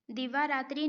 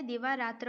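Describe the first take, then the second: First: दिवारात्रि ending in a clear "tri"; the mistaken -ratri ending in दिवारात्रि; wrong form. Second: दिवारात्र ending in "tra", no i; the proper -ratra ending in दिवारात्र; correct form. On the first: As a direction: end दिवारात्रि on an i vowel. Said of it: "दिवारात्रि नहीं होता है". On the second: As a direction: end दिवारात्र on a short a. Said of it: "दिवारात्र होता है". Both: Shown as a demonstration.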